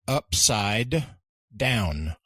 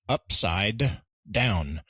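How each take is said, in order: First: Every sound in upside is fully pronounced. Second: The same.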